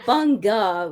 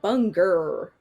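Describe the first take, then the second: First: It ends in an Australian 'a' without an r. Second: It ends in an American 'er' sound with r.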